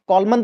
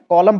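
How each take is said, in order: First: The word ends with an audible n sound. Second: The word ends on m, n silent. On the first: The speaker calls it wrong. "कॉलमन तो नहीं पढ़ रहे हैं ना" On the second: The speaker calls it right. "कॉलम पढ़ रहे हैं"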